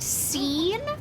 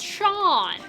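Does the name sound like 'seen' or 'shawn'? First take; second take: seen; shawn. First: The name starts with s and rhymes with seen. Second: The name starts with sh and sounds like shawn. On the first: The speaker calls it wrong. "one's pronounced scene?" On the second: The speaker calls it right. "it's supposed to be pronounced Sean"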